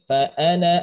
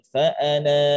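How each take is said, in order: First: The final vowel of ana is short. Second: The final vowel of ana is long. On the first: The reading continues into the next words. "Maka dibacanya tetap dibaca pendek" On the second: The reading stops at this word. "Jadi bacaannya pan panjang"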